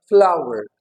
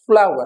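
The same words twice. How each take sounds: First: फ्लावर as a gliding "flow-er", no v; correct pronunciation. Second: Second फ्लावर as "flaa-var", with a clear v; wrong pronunciation. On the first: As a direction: model flower with a w glide. (फ्लाउअर, बिना व के) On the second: (फ्लावर, व के साथ गलत) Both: Shown as a demonstration. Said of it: "फ्लावर नहीं होता".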